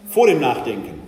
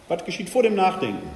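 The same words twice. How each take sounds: First: "vor" hit loud and falling; "Vor" firmly punched, the rest trailing; stress on vor. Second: Said in the usual way. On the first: Shown as a demonstration. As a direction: lean hard on the word "vor".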